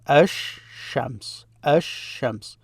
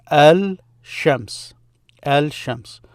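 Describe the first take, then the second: First: Ash-shams with a long doubled sh and no L; assimilated sh. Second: Al-shams with the L clearly sounded; unassimilated L. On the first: Teacher showing how you pronounce it, ash-shams with doubled sh. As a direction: split it slightly, ash-shams, holding the sh. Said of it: "but that's how you pronounce it". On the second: Teacher showing what it is in reality, al-shams with L sounded. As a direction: keep the L before sh in al-shams. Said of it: "But in reality, it's this here". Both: Shown as a demonstration.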